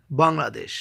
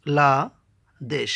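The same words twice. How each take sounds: First: Said in the usual way. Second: "বাংলাদেশ" slowly split as বাং, লা, দেশ; three separate beats in "বাংলাদেশ", pauses between; syllable by syllable. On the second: Shown as a demonstration. Teacher showing a trisyllable, saying "বাংলাদেশ" in three slow parts. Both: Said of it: "তিনবারে উচ্চারণ করতে হয়".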